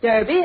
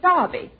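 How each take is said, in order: First: It is said the American way, like 'durby'. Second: It is said the British way, like 'darby'.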